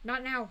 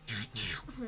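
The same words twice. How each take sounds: First: It is said aloud in a normal voice. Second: It is whispered quietly.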